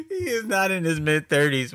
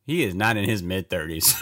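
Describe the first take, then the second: First: Higher, louder mocking repeat of "He is not in his mid-thirties"; mock outrage. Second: Said in the usual way. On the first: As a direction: throw the line back in disbelief, louder and higher. Repeats line, mocking emphasis.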